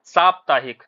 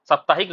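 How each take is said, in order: First: साप्ताहिक with a long first vowel, "saaptaahik"; correct pronunciation. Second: साप्ताहिक with a short first vowel, "saptaahik"; wrong pronunciation. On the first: Teacher models it for students, correctly pronounced. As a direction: stretch the opening "saa" of साप्ताहिक. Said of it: "सही उच्चारण क्या है इसका". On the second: Teacher rejects what students often say, mispronounced. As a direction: keep the first "sa" brief in साप्ताहिक. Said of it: "नहीं होता है". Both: Shown as a demonstration.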